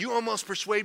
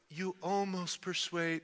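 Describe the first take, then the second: First: It is said in a hard, scornful tone. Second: It is said in a soft, gentle tone. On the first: The listener mocks the attempt to persuade him. The speaker calls it right. "It's much harder than that" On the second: The listener is nearly won over. The speaker calls it wrong. "It's not like"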